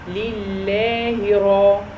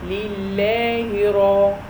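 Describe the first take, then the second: No difference in how they are said.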